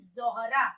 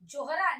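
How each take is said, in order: First: The word begins with a z sound. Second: The word begins with a j sound. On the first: The speaker calls it right. "नहीं ज़ोहरा" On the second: The speaker calls it wrong. "जोहरा नहीं"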